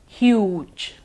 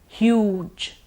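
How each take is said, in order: Both takes have the same delivery.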